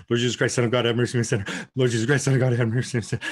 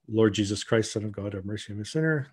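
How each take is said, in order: First: Rapid, run-together repeated prayer; panicked praying. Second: Low, softened recited prayer; measured prayer. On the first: Woman showing her prayer in a panic attack, rushed. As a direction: rattle the prayer off without a breath. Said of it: "in panic attack, it's more like". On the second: Woman repeating her rope prayer, measured and quiet. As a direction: pray it evenly and quietly. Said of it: "and you just go". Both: Shown as a demonstration.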